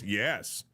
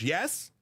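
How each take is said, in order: First: The pitch falls at the end, like a statement. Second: The pitch rises at the end, like a question.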